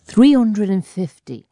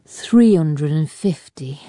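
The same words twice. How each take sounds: First: Higher, slow, firm restatement; insistent repeat. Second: Slow, tired reply, pitch staying level; weary. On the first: Allbones holds to his count under Fowler's badgering, insistent. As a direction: start high and step down, holding firm. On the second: Allbones gives Fowler the real count, wearily. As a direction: drag the figure out wearily. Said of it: "said Allbones wearily". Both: A narrator's reading.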